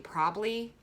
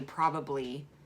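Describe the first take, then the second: First: The word is clipped, with syllables dropped. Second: The word is said with all its syllables. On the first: The speaker is talking casually. "I say probably when I'm lazy" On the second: The speaker is talking normally. "when I'm nor- like normal speaking"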